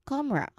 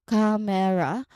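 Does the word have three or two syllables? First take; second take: two; three. First: The word is said with only two syllables. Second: The word is said with three clear syllables. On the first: "to just two" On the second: "sounding like three clear syllables"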